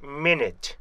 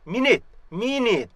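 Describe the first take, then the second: First: "minute" falling, from closed met into net; correct pronunciation. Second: "minute" as mi-nit with an open mi; wrong pronunciation. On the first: Teacher modeling the proper start, closed first syllable. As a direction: start "minute" short as met, then release the t. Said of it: "mid 이렇게 시작하셔야 돼요". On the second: Teacher imitating learners' error, open first syllable. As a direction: begin "minute" on a clear Korean mi. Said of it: "이렇게 뜨는데 이게 아니고". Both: Shown as a demonstration.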